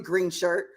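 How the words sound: The words sound hostile and dismissive. The person is being insulted. "that's an insult"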